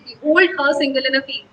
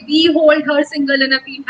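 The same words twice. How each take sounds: First: "Behold her single in a field" read slowly with weight on HOLD, SING and FIELD; light "be", stressed HOLD in "Behold her single in a field"; measured weak-strong beat through "Behold her single in a field"; iambic stress. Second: "Behold her single in a field" read slowly without the iambic beat; the how-not-to-say-it take of "Behold her single in a field"; unmetrical wrong reading. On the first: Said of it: "हम कहेंगे". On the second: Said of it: "हम ऐसे नहीं बोलेंगे". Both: Shown as a demonstration.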